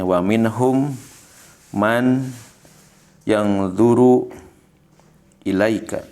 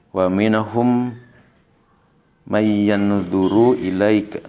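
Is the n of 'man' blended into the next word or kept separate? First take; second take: separate; blended. First: Each word is said separately with a clear n. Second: The n of man merges into the following y.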